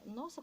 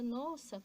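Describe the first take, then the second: First: It is said with an astonished, surprised tone. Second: It is said with a joyful, delighted tone. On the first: The speaker did not expect it. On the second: The speaker is pleased by them.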